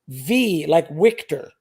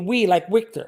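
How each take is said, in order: First: The first word starts with a V sound. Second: The first word starts with a W sound. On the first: "I say it's V like Victor" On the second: "scammers have a hard time pronouncing the letter V or W"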